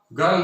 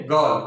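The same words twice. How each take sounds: First: गर्ल with a clear R, "garl"; wrong sounded R. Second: गर्ल as "gaal", R dropped; silent R. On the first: Teacher warning against this form, गर्ल with R sounded. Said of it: "गर्ल नहीं बोलेंगे". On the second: Teacher giving the form to use, गर्ल with silent R. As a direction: leave the R out of गर्ल. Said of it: "बल्कि बोलेंगे गर्ल". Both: Shown as a demonstration.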